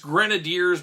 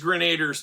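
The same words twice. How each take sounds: First: The word is said the official way. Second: The word is said the childhood way. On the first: This is how the name is actually pronounced. "apparently it's Grenadiers" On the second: This is how the speaker said it as a child. "it was always Grenadiers to me"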